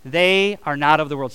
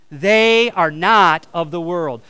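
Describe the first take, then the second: First: Said in the usual way. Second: They are not of the world, slow, louder, each word leaned on; slow emphatic repeat. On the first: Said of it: "say this with me". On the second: Shown as a demonstration. Pastor leading the congregation's final repeat, slow and louder. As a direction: hammer it home slowly. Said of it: "One more time".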